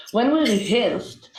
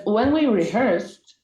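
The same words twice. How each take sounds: First: "rehearsed" said with a Hebrew-accented R; deliberate Hebrew-accented English, stressing "we". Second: Said in the usual way. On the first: Shown as a demonstration. Speaker retrying the phrase for the panel, in a Hebrew accent. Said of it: "we did it with, uh, Hebrew accent". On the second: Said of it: "you see, I can, I, I'm trying".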